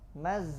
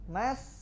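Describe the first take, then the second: First: The final consonant buzzes like a z. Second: The final consonant is a hissed, voiceless s. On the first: The speaker calls it wrong. "Bercampur suara sin dengan zai" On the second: The speaker calls it right. "aslinya mas"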